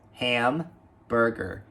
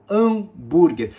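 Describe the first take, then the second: First: The word starts with an audible h sound. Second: The word starts with a vowel, no h sound. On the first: The speaker calls it right. "a gente deve pronunciar esse H do início" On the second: The speaker calls it wrong. "se falada desse jeito por um nativo de inglês, ele simplesmente vai ficar boiando"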